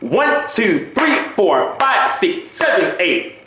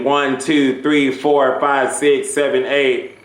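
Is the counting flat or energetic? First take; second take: energetic; flat. First: The counting is lively and full of energy. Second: The counting is flat and low in energy.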